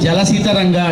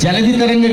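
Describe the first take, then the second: First: The first word is said with an 's' sound. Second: The first word is said with a 'dh' sound. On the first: The speaker calls it wrong. "జలసి తరంగా అంటారు" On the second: The speaker calls it right. "జలధి తరంగ కాదు"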